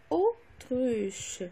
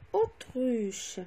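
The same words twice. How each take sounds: First: "autruche" with a clear break after "au"; split into syllables. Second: Said in the usual way. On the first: Shown as a demonstration. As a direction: separate the first syllable of "autruche". (« autruche » découpé en syllabes, au, puis truche) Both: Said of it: "dans la première syllabe".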